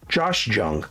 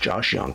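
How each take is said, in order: First: The surname begins with a J sound. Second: The surname begins with a Y sound. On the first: The speaker calls it wrong. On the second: The speaker calls it right.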